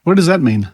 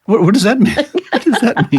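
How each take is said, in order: First: Said in the usual way. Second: Laughing incredulous question. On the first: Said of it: "repeated question". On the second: Real, not acted. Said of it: "repeated with laugh".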